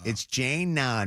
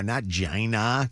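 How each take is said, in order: First: Jana said as ZHAY-na; correct pronunciation. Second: Jana said as ZHAH-nah; wrong pronunciation. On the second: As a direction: Jana with broad ah vowels. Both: Shown as a demonstration.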